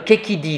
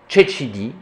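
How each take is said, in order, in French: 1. Le mot commence par un son k dur. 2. Le mot commence par un son ch doux.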